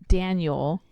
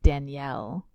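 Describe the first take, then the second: First: The name is said the plain American way. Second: The name sounds like the female name Danielle.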